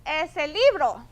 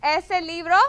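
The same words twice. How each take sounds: First: "Es el libro." said as a statement, falling at the end on "libro"; flat statement tune. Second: "Es el libro?" asked as a question, louder, stressing "libro"; question intonation. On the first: Teacher shows the students the wrong, statement-like reading. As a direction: drop the voice on "libro" so it is not a question. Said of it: "Otherwise, it's gonna sound". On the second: Teacher models a Spanish question for the class, asking. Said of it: "When you ask a question with es". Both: Shown as a demonstration.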